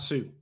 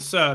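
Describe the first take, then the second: First: The name ends in a long 'oo' vowel. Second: The name ends in a short 'uh' vowel. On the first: The speaker calls it wrong. "not Sue" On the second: The speaker calls it right. "it's Justin Suh"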